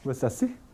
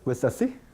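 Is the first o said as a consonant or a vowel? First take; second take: consonant; consonant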